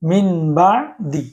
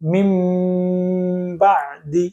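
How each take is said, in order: First: An n sound comes before the b. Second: An m sound comes before the b. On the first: The speaker calls it wrong. "এখন আমরা মিন বা দিয়ে এটা পড়বো না" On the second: The speaker calls it right. "আমরা এখন মিম উচ্চারণ করব।"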